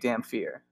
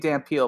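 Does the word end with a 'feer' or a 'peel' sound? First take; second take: feer; peel. First: The word ends with a 'feer' sound. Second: The word ends with a 'peel' sound. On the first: This is how it is supposed to be said. The speaker calls it right. "it's supposed to be Damn Fear" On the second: This is how the dub says it. The speaker calls it wrong. "They say Damn Peel"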